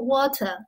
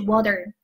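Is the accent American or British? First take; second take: British; American. First: It is said with a British accent. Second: It is said with an American accent. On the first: "美式发音它不说water" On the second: "它说的是water"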